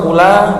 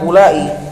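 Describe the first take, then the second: First: The word ends on a short vowel. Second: The final vowel is drawn out long. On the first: "bisa dikosar" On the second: "bisa di mad"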